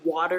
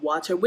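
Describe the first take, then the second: First: The middle consonant sounds like a soft D. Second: The middle consonant sounds like a crisp T. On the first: "I would say D" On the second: "instead of saying T"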